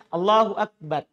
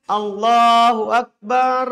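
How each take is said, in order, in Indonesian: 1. Huruf r terakhir pendek dan biasa, tanpa dobel. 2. Huruf r terakhir digetarkan berulang-ulang dan dipanjangkan. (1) "Tidak didengungkan. Tidak ditasydid" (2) "Yaitu roknya berulang"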